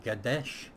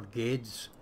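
First: "Gadesh" ending in a sh sound; pronounced Gadesh. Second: "Gades" ending in an s sound, no sh; pronounced Gades. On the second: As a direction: say "Gades" with a plain s at the end. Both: Shown as a demonstration. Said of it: "how do you pronounce this".

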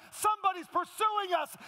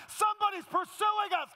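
First: Loud preaching. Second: Higher, louder shout on Somebody's; shouted climax. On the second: Pastor hitting the sermon's climax to the congregation, shouting. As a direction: yell "Somebody's pursuing us" at the peak of the sermon. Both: Acted. Repeated preached climax line.

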